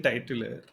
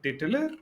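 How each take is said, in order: First: "titular" said as TIE-tular; titular, opening on the sound of "tie"; first syllable like "tie". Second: "titular" said as TIT-ular; questioning "titular", opening on a short "tit"; first syllable like "tit". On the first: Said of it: "Obviously, you said titular". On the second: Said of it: "And I was like". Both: Retold or imitated.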